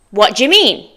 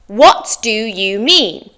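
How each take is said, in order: First: "What do you mean?" as "whaddya mean"; native linked form. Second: Slow "What do you mean?", every word separate; "What do you mean?" with "do you" fully sounded; careful full form. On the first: Teacher models the phrase for practice, linked form. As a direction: run "What do you" together before "mean". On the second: Teacher reviews phrase number two, slow full form. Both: Shown as a demonstration. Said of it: "go over those common phrases again".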